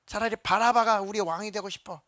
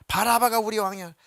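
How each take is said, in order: First: Higher, louder demand stressing 바라바가; crowd shouting. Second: Short, louder shout punching 바라바가; crowd shouting. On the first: Crowd shouting for Barabbas, 바라바가 stressed loud. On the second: Crowd insisting on Barabbas, 바라바가 shouted loud. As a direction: declare 바라바가 as king with force. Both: Retold or imitated. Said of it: "막 소리를 질러 말하기를".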